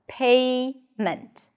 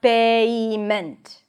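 First: The vowel glides within one single syllable. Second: The vowel is split into two separate syllables. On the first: The speaker calls it right. "The word has two syllables" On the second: The speaker calls it wrong. "it's not two separate syllables. It's not payment"

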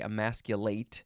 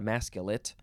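First: It is pronounced the way the verb is. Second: It is pronounced unlike the verb form. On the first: The speaker calls it right. "this is the verb, so you would say emasculate" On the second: The speaker calls it wrong. "not emasculate"

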